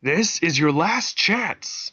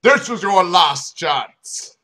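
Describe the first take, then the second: First: Slow mock shout. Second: Loud, slow shouted ultimatum; slow, loud police ultimatum. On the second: Acted. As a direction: bellow a final warning. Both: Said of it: "he shouted".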